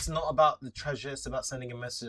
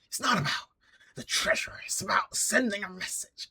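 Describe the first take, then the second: First: It is said in the speaker's ordinary voice. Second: It is said in a put-on character voice.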